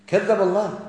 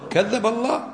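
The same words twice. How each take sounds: First: "كذب الله" stated with a falling end; "كذب الله" with a flat, final fall; firm answer. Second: "كذب الله" asked with a rising, higher end; "كذب الله" said rising like a query; questioning rise. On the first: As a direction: settle it: "كذب الله" as a verdict. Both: Shown as a demonstration. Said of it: "كذب الله ولا ما كذب الله؟".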